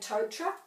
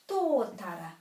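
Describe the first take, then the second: First: The first syllable is short and not stressed. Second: The first syllable is long and stressed. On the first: The speaker calls it wrong. "most people say totara" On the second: The speaker calls it right. "This has a macron over the tō"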